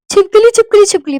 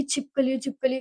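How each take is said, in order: First: High, loud cry of alarm; retold scream. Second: Subdued, slightly softer mock whimper; retold near tears. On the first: Hostel girl screaming for help about a lizard, retold scream. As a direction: shriek it out in repeated bursts. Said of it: "मैं चिल्लाई". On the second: First hostel night, tearful about a lizard, subdued retelling. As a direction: repeat it weakly, imitating being about to cry. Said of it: "मेरे को रोना आ रहा था कि".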